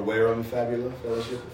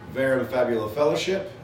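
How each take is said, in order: First: The name is pronounced in a Latin style. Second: The name is pronounced in an English style.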